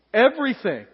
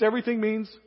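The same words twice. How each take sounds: First: Everything landed louder and falling; a firm preacher's "everything"; stress on everything. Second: Said in the usual way. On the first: Shown as a demonstration. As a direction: hit "everything" hard, then let it drop.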